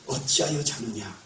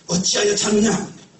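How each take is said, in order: First: It is said in a quieter, calmer voice. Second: It is said in a louder, raised voice.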